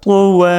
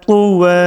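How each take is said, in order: No difference in how they are said.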